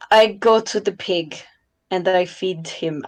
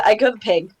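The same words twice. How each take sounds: First: Lightly put-on character voice. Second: Said in the usual way. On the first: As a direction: say it as Lola, barely shifted from own voice. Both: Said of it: "I'm saying this in my character voice".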